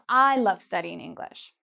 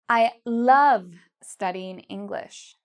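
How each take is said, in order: First: The stress is on the word I. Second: The stress is on the word love. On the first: The speaker loves it, unlike other people. "I'm really emphasizing that I am" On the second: The speaker doesn't just like it, but loves it. "love is the part I'm saying louder and longer"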